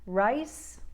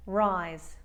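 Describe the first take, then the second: First: "Rice" ending in an unvoiced S, pitch rising. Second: "rise" falling, ending in a buzzed Z; "rise" with voiced Z. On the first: Coach comparing two words for learners, "Rice" with voiceless S. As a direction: lift "Rice" and finish on a hissed S. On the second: Coach comparing two words for learners, "rise" with voiced Z. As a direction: drop through "rise" onto a vocalized Z. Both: Shown as a demonstration. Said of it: "listen to the difference for comparison".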